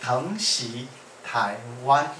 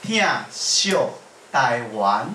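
First: Said in the usual way. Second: "[name]" pronounced in Taiwanese Hokkien; Taiwanese pronunciation. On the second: Shown as a demonstration. Singer announcing the song title, "[name]" in Taiwanese Hokkien. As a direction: say "[name]" as Taiwanese "thiànn-sioh Tâi-uân". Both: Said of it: "是用台语发音".

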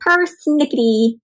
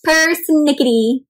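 First: Persnickety said slowly, syllable by syllable; slow careful word. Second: Persnickety said slowly again with a rising end; slow modelled Persnickety ending up; slow careful word. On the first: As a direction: savour each sound of Persnickety. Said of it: "persnickety tickled her tongue". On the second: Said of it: "My friends, try that". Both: Shown as a demonstration.

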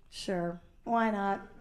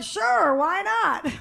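First: Low, hushed, tender yes; sweet soft agreement. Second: Higher, upbeat casual yes; breezy agreement. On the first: Woman answering the lovely guy, sweetly hushed. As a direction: answer very softly, much lower. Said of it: "asked me really sweetly". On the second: Woman answering guys who ask, breezy agreement. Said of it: "And I'll be like". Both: Retold or imitated.

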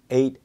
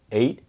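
Both takes have the same delivery.

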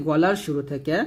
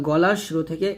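The two takes are said the same way.

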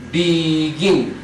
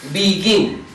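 First: "Begin" drawn out as be, then gin; split into syllables. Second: Said in the usual way. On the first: Shown as a demonstration. Teacher counting syllables for learners, "Begin" broken into two beats. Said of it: "Tiene dos conson".

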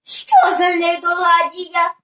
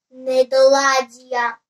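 First: Slow, wondering question; puzzled question aloud. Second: Slow, low, level reading of a sign; low and deliberate, word by word; reading out an inscription. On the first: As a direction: ask it aloud, drawing it out in puzzlement. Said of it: "вголос запитала Аля". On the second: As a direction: spell out «Недоладія» slowly on one low note. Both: A narrator's reading.

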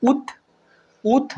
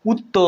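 First: উত said as ut, closed on the t; silent vowel. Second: উত্ত said as ut-to, with a long open o; sounded vowel. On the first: Teacher showing the t has no vowel, closed ut. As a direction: stop উত on a bare t. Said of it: "তয়ের কি অ উচ্চারণ হয়েছে". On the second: Teacher showing how it would wrongly sound, o added. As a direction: open the end of উত্ত into a drawn-out o. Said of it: "অ পর্যন্ত উচ্চারিত হতো". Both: Shown as a demonstration.

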